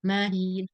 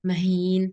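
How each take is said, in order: First: The first vowel is drawn out long. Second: The first vowel is kept short. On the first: The speaker calls it wrong. "Bagaimana contoh ditaulid?" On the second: The speaker calls it right. "ma di sini fathahnya satu harakat"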